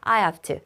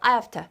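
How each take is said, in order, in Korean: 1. 빠르게 말하고 v 소리를 약하게 해요. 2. 아주 빠르게 말하고 많이 줄여서 발음해요. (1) "빠르게" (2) "더 빠르게 하면은"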